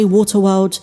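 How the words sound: It is said in a British accent.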